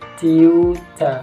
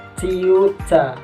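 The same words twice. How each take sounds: The two takes are said the same way.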